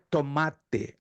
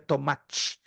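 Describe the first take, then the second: First: It is said in a southern Brazilian accent. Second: It is said in a Rio de Janeiro accent. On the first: "Só no sul do Brasil... se pronuncia tomate" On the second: "no Rio de Janeiro, em outros estados, se pronuncia tomate"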